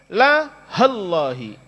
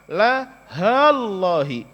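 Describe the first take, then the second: First: The vowel of 'ha' is kept short. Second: The vowel of 'ha' is held long. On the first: "Haknya pendek" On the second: "Haknya panjang"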